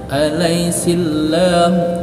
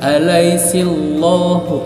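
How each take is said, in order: First: The L is thin, with an 'a' vowel. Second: The L is heavy, with an 'o' vowel. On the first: The speaker calls it right. "tetapi huruf a ya, yang menandakan cara bacanya billahi" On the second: The speaker calls it wrong. "jangan alaisillahu, salah"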